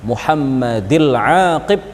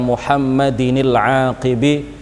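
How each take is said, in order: First: Muhammad has no n ending; aqib ends bare. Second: Muhammad has an n ending; aqib ends in i. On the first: The poem's meter is kept. The speaker calls it right. "Mengkasroh kata lafadz Muhammadi tanpa tanwin" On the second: The poem's meter is broken. The speaker calls it wrong. "kalau dibaca Muhammadinil aqibi nanti akan kacau"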